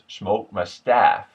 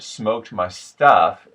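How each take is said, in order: First: The last word has a short A vowel. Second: The last word has a plain UH vowel. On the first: "it becomes" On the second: "instead of"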